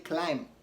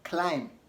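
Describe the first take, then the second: The two takes are said the same way.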